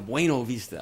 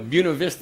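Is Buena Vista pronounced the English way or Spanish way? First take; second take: Spanish; English. First: It is pronounced with a Spanish sound. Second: It is pronounced with an English local sound. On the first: It names the winery. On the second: It names the local town.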